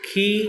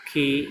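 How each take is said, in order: First: खी with force, drawn out and pitched higher; long ee. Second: खी said short and light, little breath. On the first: Teacher showing students the long ई, stressed and drawn out. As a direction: stretch and stress the ई in खी. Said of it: "बल भी लगाएंगे और थोड़ा लंबा भी खींचेंगे". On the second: Teacher showing students the short इ, quick and light. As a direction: clip the short इ in खी. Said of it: "छोटी की और बड़ी की". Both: Shown as a demonstration.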